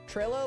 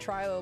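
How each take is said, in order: First: The first vowel is a short 'ih' sound. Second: The first vowel is a long 'eye' sound. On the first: "Trillo like Zillow?" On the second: "I read Trilo like Trilobite"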